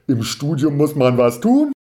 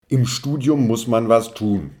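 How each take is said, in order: First: The voice rises at the end like a question. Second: The voice falls at the end like a statement. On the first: Something is being asked. "ist eine Frage" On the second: Something is being asserted. "ist eine Aussage"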